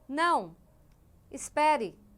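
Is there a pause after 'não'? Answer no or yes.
yes. There is a pause after the first word. The listener is told to wait.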